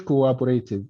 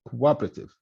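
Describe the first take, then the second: First: Cooperative as "koo-wa-bo-RAY-tiv"; non-native pronunciation. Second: Cooperative as "koo-WAH-pruh-tiv", lower; native pronunciation. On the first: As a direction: sound out every syllable of cooperative, with RAY. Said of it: "بيحكوش cooperative". (نطق cooperative بكل المقاطع "كوابوريتيف") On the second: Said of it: "هون شو بيحكوها؟". (نطق cooperative كالناطقين "كو-وابرتيف") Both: Shown as a demonstration.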